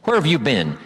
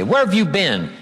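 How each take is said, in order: First: A touch of cutting sarcasm; mildly pointed rebuke; loaded, sarcastic. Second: Sarcastic. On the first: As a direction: let the question carry blame. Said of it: "that's loaded with "you don't care". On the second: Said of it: "be very careful of things like that". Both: Shown as a demonstration.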